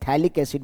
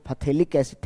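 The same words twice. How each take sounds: First: "थैलिक" starting on "th", P silent; no "pha" before "थैलिक"; correct pronunciation. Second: "फथेलिक" with a sounded "pha" first; extra opening syllable on "फथेलिक"; wrong pronunciation. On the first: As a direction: say "थैलिक" in two syllables. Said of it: "पीएच silence रहता है". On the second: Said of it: "फथेलिक नहीं पढ़ना है". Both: Shown as a demonstration.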